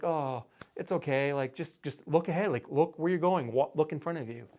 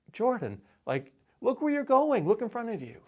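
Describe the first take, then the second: First: Mildly gentle, reassuring parent tone; consoling a child. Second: Much higher, amused exasperated parent voice; half-laughing scold to a clumsy toddler. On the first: Parent soothing a toddler who hit a beam, gently reassuring. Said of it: "we're trying to console him". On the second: Parent chiding a toddler who hit the post again, high and exasperated. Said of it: "we're kinda chuckling at this point". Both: Retold or imitated.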